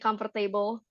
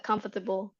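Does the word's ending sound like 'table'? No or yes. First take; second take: yes; no. First: The ending is pronounced like the word table. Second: The ending is not pronounced like table. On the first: The speaker calls it wrong. "they will say this as in table ... nggak dibacanya comfortable" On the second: The speaker calls it right. "dia comfortable"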